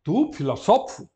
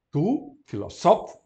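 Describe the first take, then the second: First: Said in the usual way. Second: Tu filoSOfo said slower; slow model genitive. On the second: Shown as a demonstration. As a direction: stress the moved accent. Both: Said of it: "vai ficar na penúltima".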